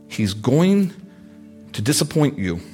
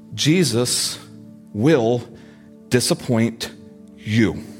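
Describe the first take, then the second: First: It is said at a normal pace. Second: It is said slowly and deliberately.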